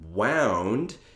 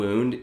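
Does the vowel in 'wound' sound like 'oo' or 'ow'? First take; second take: ow; oo. First: The vowel sounds like 'ow' in 'down'. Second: The vowel sounds like 'oo' in 'moon'. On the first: It means something wound up or twisted. "the other wound is winding" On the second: It means an injury or trauma. "one wound is trauma"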